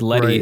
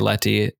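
First: The middle consonant sounds like a soft D. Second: The middle consonant sounds like a clear T. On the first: The speaker calls it wrong. "I always said Letty, right. And she corrected me" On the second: The speaker calls it right. "in the way that she says it"

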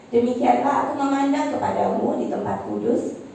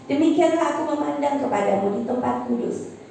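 The two takes are said the same way.

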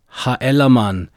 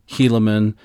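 First: It is said the way its bearer might have heard it. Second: It is said the usual English way. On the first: This may be how the name sounded in its own day. "it might be that they heard their names as" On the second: This is how the name is said today. "We say them traditionally"

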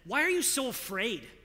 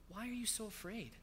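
First: It is said harshly, as a rebuke. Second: It is said gently, like a tender teacher.

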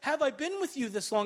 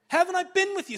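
First: It is said tearfully and pleadingly. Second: It is said sternly and impatiently.

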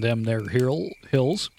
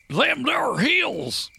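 First: It is said in the speaker's ordinary voice. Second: It is said in a put-on old miner accent.

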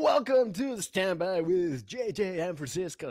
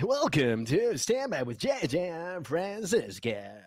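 First: It is said in his normal voice. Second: It is said in a put-on DJ voice.

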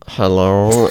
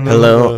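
First: It is said in a weird, Stitch-like voice. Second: It is said in a natural voice.

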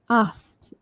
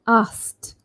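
The two takes are said the same way.

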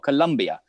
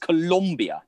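First: The second syllable has an 'u' vowel. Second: The second syllable has an 'o' vowel. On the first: The speaker calls it wrong. "not Colombia" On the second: The speaker calls it right. "A bit like it's Colombia"

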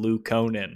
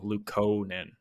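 First: The U vowel is held long. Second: The O vowel is held long. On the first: The speaker calls it wrong. "I had always like had that long U" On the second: The speaker calls it right. "Or I guess long O"

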